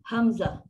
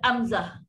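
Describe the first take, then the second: First: The word starts with a breathy h sound. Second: The word starts with a plain vowel sound. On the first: The speaker calls it right. "Ha, Ha simpul" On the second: The speaker calls it wrong. "bukan Amzah. Bukan A"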